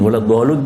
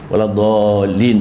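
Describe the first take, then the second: First: The word ends with an 'un' sound. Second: The word ends with an 'in' sound. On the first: The speaker calls it wrong. "tak boleh" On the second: The speaker calls it right.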